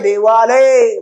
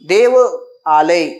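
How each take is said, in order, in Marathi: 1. हे दोन शब्द एकत्र जोडून एकच शब्द म्हणून उच्चारले जातात. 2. हे दोन शब्द वेगवेगळे, स्वतंत्रपणे उच्चारले जातात.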